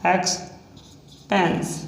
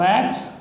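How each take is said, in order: First: Stretched slowly and a bit softer; expense drawn out long and softer, syllable by syllable; slow dictation. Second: Said in the usual way. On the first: Shown as a demonstration. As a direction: drawl it out as you write. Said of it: "drawn out while writing". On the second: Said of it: "said again normally".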